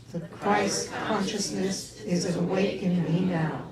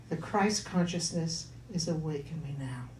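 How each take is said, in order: First: Slow, drawn-out chanted affirmation; group affirmation. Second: Spoken affirmation. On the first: Congregation repeating the affirmation after the minister, slow and chanted. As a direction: stretch every word like a mantra. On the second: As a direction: say it gently as a mantra. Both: Shown as a demonstration. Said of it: "Can you say that with me".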